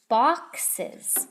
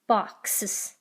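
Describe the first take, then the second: First: The word is said as two syllables, box-es. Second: The word is said as one syllable, box-s. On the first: The speaker calls it right. "I need an E S" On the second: The speaker calls it wrong. "you add only an S on the end"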